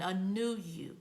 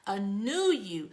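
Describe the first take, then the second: First: Said in the usual way. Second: Slow breathy unvoiced whisper. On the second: Shown as a demonstration. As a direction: let it out slowly as a hushed promise. Says the phrase, then whispers it.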